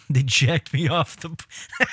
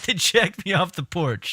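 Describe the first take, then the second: First: Cracking up. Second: Said in the usual way. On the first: Real, not acted.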